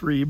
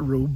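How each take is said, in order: First: The vowel sounds like "ee" in reef. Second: The vowel sounds like "oo" in rube. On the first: The speaker calls it right. "but it's Reeb" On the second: The speaker calls it wrong. "a lot of people call it Rube"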